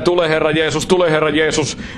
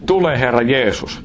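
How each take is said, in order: First: It is said in a flat, monotone voice. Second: It is said in a warm, expressive voice. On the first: It is mere religion without a heart behind it. The speaker calls it wrong. "se huutaa vaan monotonisen äänellä" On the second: It comes from a burning heart that loves Jesus. The speaker calls it right. "jos se nousee täältä alemmasta tasosta, ei päästä, vaan täältä"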